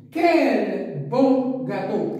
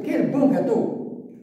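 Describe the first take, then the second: First: Slow, drawn-out exclamation with a laugh; delighted exclamation, stretched out slowly; exclamative reading. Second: "Quel bon gâteau" said slowly, higher on "bon" with a rising tune; slow exclamation rising on "bon"; exclamative reading. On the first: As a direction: savour each word as an exclamation. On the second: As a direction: show the exclamation with a lift on "bon". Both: Shown as a demonstration. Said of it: "c'est une phrase exclamative".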